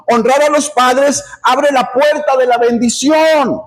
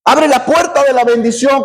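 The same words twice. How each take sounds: First: Said in the usual way. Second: "Abre" lifted and punched at the start, the line ending on a rise; stress on Abre. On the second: Shown as a demonstration. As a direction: hit "Abre" hard to repeat the point. (acento marcado en "Abre", con entonación ascendente)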